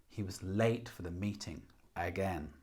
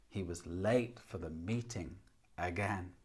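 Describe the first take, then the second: The two takes are said the same way.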